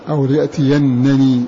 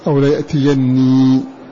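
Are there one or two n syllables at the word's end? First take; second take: two; one. First: Two separate n syllables are heard at the end. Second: One doubled n sound is heard at the end. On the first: "بنونين" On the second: "بنون واحدة مشددة"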